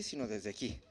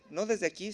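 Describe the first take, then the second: First: "sino desde aquí" dropped low and soft; from the gut. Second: Said in the usual way. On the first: Shown as a demonstration. Preacher showing words come from the viscera, low and soft. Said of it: "desde las vísceras". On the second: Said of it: "todo lo que decimos viene desde".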